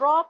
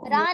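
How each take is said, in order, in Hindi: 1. r के बाद एक भरपूर, गोल 'aw' आता है। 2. r के बाद एक सादा, पतला 'a' आता है। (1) "रॉ पढ़ना है" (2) "रा नहीं पढ़ना है"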